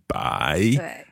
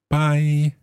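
First: The word is said with a dipping tone. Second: The word is said without a dipping tone. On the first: The speaker calls it right. "so it should be 3rd tone then" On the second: The speaker calls it wrong. "I got the tone wrong"

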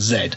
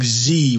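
First: The letter is said the British way, zed. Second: The letter is said the American way, zee.

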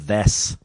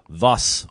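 First: The vowel is a plain short i. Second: The vowel sounds like the u in 'thus'.

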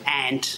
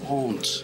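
First: The word is said in an Irish accent. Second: The word is said in a posh English accent. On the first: "Irish people say aunt" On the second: "Posh English people say aunt, or something like that"

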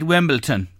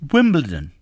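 First: The last syllable is said with a 't', 'ton'. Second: The last syllable is said with a 'd', 'don'. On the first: The speaker calls it wrong. "a lot of people, especially in this country, say ... T-O-N" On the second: The speaker calls it right. "pronounce it as Wimbledon"

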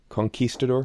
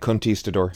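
First: The qu part does not sound like a t. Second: The qu part sounds like a t. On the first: The speaker calls it right. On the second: The speaker calls it wrong.

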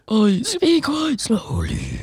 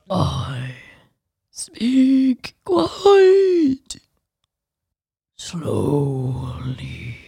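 First: The sentence is spoken at ordinary speed. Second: The sentence is drawn out very slowly. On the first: "let's try regular speed Treebeard" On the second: "Takes approximately 5 times as long as it should to get a joke out"

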